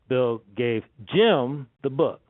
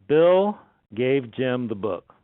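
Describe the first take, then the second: First: The stress is on Jim. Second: The stress is on Bill.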